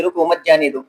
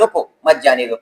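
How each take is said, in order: First: "رکو مت جانے دو" with رکو tied to مت; no pause after رکو. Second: "رکو" set apart, then "مت جانے دو"; short break right after رکو; pause after رکو. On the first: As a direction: keep "رکو مت" together as one phrase. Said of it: "دې رکو مت پسې کامه وه". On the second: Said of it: "ده په رکو پسې کامه ولګوله". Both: Shown as a demonstration.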